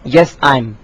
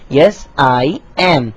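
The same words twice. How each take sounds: First: The last two words are contracted together. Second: The last two words are said in full. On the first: The speaker calls it wrong. "सो ये आई एम जो है वो गलत है, ये contraction मुमकिन नहीं है" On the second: The speaker calls it right. "आपको पूरा कहना पड़ेगा"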